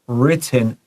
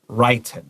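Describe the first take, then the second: First: The first vowel is short. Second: The first vowel is long. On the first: The speaker calls it right. "the muing is short" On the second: The speaker calls it wrong. "not written"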